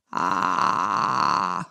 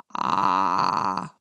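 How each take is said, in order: First: Squeezed, pressed creaky fry, much lower; tense creak. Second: Loose, easy creaky fry with plenty of airflow, much lower; relaxed creak. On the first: Voice coach showing the wrong, tense creak, pressed fry. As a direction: clamp the throat and grind out a strained creak. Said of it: "Det er feil". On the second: Voice coach showing the right, relaxed creak, airy fry. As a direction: let a relaxed creak ride on the breath. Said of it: "kontra en avspent riktig en med mye luftstrøm". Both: Shown as a demonstration.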